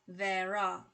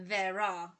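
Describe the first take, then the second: No difference in how they are said.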